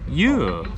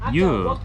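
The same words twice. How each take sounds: First: The word is said on a high tone. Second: The word is said on a medium tone. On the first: It means pineapple. "and a high tone" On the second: It means watermelon. "a medium tone"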